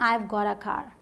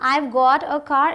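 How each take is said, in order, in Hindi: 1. Got और a मिलकर gotta बन जाते हैं। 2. Got और a अलग-अलग शब्दों की तरह बोले जाते हैं।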